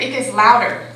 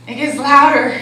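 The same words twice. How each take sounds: First: Said in the usual way. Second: "louder" pushed out louder and firmer. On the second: Shown as a demonstration. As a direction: turn the volume up on "It gets louder".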